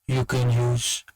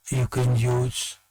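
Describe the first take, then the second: No difference in how they are said.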